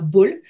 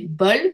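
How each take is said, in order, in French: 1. La voyelle est un O fermé. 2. La voyelle est un O ouvert. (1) "c'est pas bol" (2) "ça sera un O ouvert parce que c'est bol"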